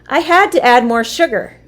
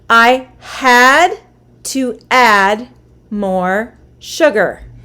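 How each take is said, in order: First: The sentence is said at a faster pace. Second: The sentence is said at a slower pace.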